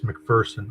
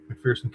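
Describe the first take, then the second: First: The second syllable does not sound like 'fear'. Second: The second syllable sounds like the word 'fear'. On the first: The speaker calls it right. "there's no fear in McPherson" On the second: The speaker calls it wrong. "I'm pronouncing that wrong"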